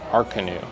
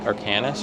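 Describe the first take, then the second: First: The name ends without any s sound. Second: The name ends with a sounded s. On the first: The speaker calls it right. "No, it's Arcanu" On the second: The speaker calls it wrong. "I thought it was like Arcanus or something"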